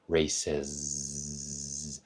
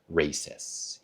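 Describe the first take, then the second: First: The ending has a buzzing, voiced z sound. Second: The ending has a hissing, voiceless s sound. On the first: The speaker calls it right. "I can feel that in my fingers. It is vibrating" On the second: The speaker calls it wrong. "one of the most common things I hear"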